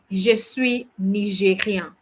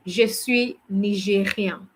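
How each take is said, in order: Both takes have the same delivery.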